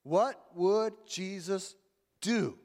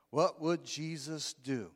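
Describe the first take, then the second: First: Slow, with "do?" set apart after a pause and hit firmly; stress on do. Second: Slow, even reading of "What would Jesus do?"; slow recitation. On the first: Preacher showing congregation the key word, stressing "do?". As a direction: lean hard on the final word "do?". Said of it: "the emphasis in that saying is the word do". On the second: Preacher reciting slogan to the church, slow and even. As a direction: spell out the slogan slowly. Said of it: "W W J D". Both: Shown as a demonstration.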